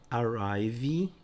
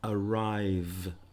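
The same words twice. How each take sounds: First: The word ends with an extra vowel after v. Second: The word ends on the v sound. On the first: The speaker calls it wrong. "Não é arrive, não é vi" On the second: The speaker calls it right. "Você para no v"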